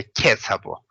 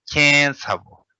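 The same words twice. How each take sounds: First: "ke chabo" with a plain oral ke, no nasal; wrong pronunciation. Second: "Kien chabo" with the vowel of "Kien" nasalized, stress on "Kien", falling; nasalized pronunciation. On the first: Teacher showing students the wrong reading, plain unnasalized "ke chabo". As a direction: say "ke" flat and open, the way nobody speaks it. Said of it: "we don't say ke chabo". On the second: Teacher modelling the spoken Tibetan form, nasalized "Kien chabo". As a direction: push the "Kien" through the nose. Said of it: "pronounce as a, like, nasalized". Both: Shown as a demonstration.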